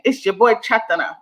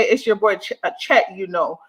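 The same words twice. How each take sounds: First: "Chatana" said as Cha-TA-na, copying the botched name; lightly imitating his messed-up accent; garbled mock patois. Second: Said in the usual way. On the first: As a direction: quote "Chatana" the way he mangled it. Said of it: "I don't even know what he's saying". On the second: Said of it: "I think he's trying to say".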